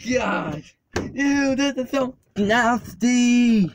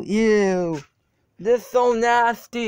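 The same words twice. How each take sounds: First: Slow drawn-out grossed-out ew, higher; disgusted. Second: Grossed-out groan, higher and louder; recoiling at something gross; disgusted. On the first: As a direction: really savor how gross it is. Climbing into muddy truck. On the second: Stepping into mud. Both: Real, not acted.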